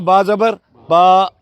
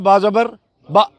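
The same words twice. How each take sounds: First: The final vowel is held for two seconds. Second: The final vowel is held only briefly. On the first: "दो second के लिए" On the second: "पहले था"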